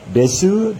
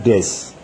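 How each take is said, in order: First: The final u is clearly pronounced. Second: The final u is dropped.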